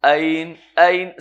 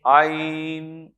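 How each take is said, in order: First: "عین" said plainly from the front of the mouth, no throat; wrong front ع. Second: "عین" drawn slowly from the back of the throat; slow, correct throat-made "عین"; correct throaty ع. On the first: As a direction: show the mistake: "عین" said lightly from the front. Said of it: "غلط ہو سکتا ہے تلفظ". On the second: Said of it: "تھوڑا سا پیچھے لے جائیں تو عین". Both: Shown as a demonstration.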